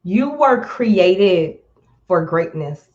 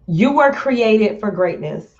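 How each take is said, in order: First: Very slow, words spaced out; slow and deliberate. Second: Said in the usual way. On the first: Real, not acted. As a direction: let it sink in slowly. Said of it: "I'm sitting here talking slow".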